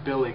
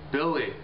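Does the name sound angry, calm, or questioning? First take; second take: calm; angry. First: The name is said in a calm tone. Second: The name is said in an angry tone. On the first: A father is simply calling his son over. "Just means a regular way, normal way to call his son" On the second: The son is probably in trouble. "It's an angry way to say his name"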